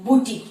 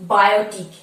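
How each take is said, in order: First: বুটিক as boo-teek, two syllables; correct pronunciation. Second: বায়োটিক, by-o-tik, spelled-out mistake; spelling-based wrong বায়োটিক; wrong pronunciation. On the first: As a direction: model the right বুটিক. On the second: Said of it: "এইভাবে যদি ভেঙে বলি বায়োটিক". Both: Shown as a demonstration.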